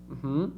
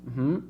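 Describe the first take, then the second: Both takes have the same delivery.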